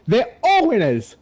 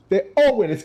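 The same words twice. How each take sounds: First: High, slow hammed-up cheer; drawn-out cheer. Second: High, lighter repeat of the cheer; quicker cheer. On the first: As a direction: stretch it out like a host. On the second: Pretend. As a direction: toss it off cheerfully. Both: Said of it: "Give them a round of applause".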